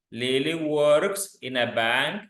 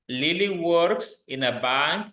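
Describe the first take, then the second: No difference in how they are said.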